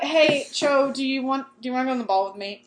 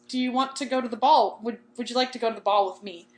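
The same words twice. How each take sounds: First: Acted mumbled rush at the end; nervously rushed. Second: Said in the usual way. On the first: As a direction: blurt the invitation out too fast to follow. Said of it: "What did you say?". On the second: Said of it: "He says".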